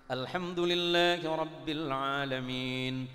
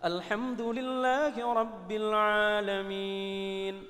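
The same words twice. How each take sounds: First: It is recited quickly and briskly. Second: It is recited slowly and drawn out.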